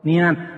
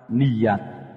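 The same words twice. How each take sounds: First: The vowels run together without a clear y. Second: A clear y sound joins the two vowels. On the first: The speaker calls it wrong. "sering salah makhraj" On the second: The speaker calls it right. "Ya di fathah"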